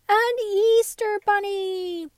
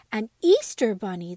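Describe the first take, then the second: First: Much higher, louder and slow, a squeal of joy; squealing delight. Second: Louder, delighted exclamation; excited cry. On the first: Dolls cheering the Easter bunny, squealing with joy. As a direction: stretch it out in a high squeal. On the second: Dolls jumping and clapping, crying out in delight. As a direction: call it out with glee. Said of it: "the dolls all cried". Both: Acted.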